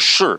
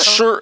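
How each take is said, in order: First: The pitch falls sharply from high to low. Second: The pitch stays high and level. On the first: It means yes. "significa sim" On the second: It means poem. "no primeiro tom significa poema"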